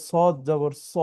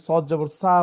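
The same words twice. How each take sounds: First: "সদ জবর স" ending in rounded so; correct so sound. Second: "সদ জবর সা" ending in open saa; wrong open sa. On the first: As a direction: end "সদ জবর স" on o, not aa. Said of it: "এটা ওকে ওর নিজের মতো করে পড়তে হয়". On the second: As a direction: model the mistake "সদ জবর সা" with an aa vowel. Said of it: "বলে ভুল হয়ে যাবে". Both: Shown as a demonstration.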